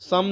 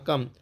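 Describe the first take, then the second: First: The word begins with an s sound. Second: The word begins with a k sound. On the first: The speaker calls it wrong. "सम नहीं पढ़ना है" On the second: The speaker calls it right. "सी को यहाँ पे क्या पढ़ेंगे, का मा कम"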